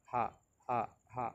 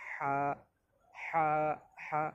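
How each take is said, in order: First: Said in the usual way. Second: হা squeezed from the throat, thin and higher; throat-pushed ha. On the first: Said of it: "মুখ থেকে উচ্চারণ হবে normally". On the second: Shown as a demonstration. Teacher shows the first letter ha, thin throat-pushed sound. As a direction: push হা out through a tightened throat. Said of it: "গলা চাপ দিতে হবে".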